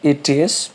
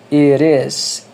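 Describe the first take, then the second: First: The t is a clear, separate t sound. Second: The t is a quick flap like an r. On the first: "Você pode falar it is, não tem problema nenhum em você falar, falar assim" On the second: "Você faria uma pronúncia desse R do português. Ou seja, um som como R"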